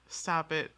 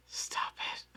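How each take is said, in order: First: Said in the usual way. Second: Laughing whisper. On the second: Real, not acted.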